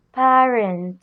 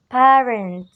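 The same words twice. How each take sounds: The two takes are said the same way.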